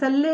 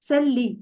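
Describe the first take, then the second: First: The word ends with an open 'e' vowel. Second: The word ends with a thin 'ee' vowel. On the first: The speaker calls it wrong. "सल्ले ए करके नहीं बोलना" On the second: The speaker calls it right. "ए नहीं, ई करके"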